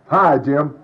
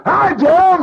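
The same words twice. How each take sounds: First: Said in the usual way. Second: A sudden high blast of a greeting; greeting heard as a shrill loud jolt; jarring shout. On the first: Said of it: "they might have said". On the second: Retold or imitated. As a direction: make the greeting hit like a shock to raw nerves. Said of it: "what I felt like was".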